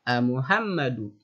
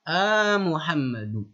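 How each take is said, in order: First: The call is voiced as if to someone nearby. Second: The call is voiced as if to someone far away. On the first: The person called is close by. "Beda kalau misal" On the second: The person called is far away. "itu untuk menunjukkan lil ba'id. Jadi intonasi nadanya pun berbeda"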